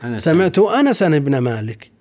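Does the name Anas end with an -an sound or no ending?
-an ending. The name Anas ends with an -an sound. "وإلا فالأصل أن يقول"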